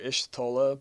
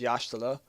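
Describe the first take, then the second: First: The name begins with an 'ish' sound. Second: The name begins with a 'yah' sound. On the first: The speaker calls it wrong. "which I used to call her Ishtola" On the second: The speaker calls it right. "so you pronounce it Y'ashtola"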